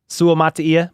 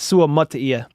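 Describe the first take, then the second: First: Matia starts with a vowel like 'mat'. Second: Matia starts with a vowel like 'mutt'. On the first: "I say mat sometimes" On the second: "if you want to use the the accent"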